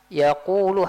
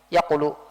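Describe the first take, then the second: First: The middle vowel is drawn out long. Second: The middle vowel is kept short. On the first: The speaker calls it right. "harusnya kayak gitu" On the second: The speaker calls it wrong. "tidak adakan pe- pemanjangan suaranya"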